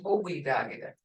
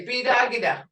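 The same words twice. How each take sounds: First: Bobidagida said in full with all syllables, a bit lower; full form. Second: Bidagida with the first syllable dropped; shortened form. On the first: Teacher showing the formal full Bobidagida to her class. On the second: Teacher contrasting the short Bidagida with the full form. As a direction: say Bidagida clipped, the everyday way. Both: Shown as a demonstration. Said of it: "Instead of saying".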